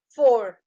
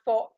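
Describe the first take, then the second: First: The word begins with an f sound. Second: The word begins with a p sound. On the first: The speaker calls it right. "With sound of F" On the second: The speaker calls it wrong. "Not pour"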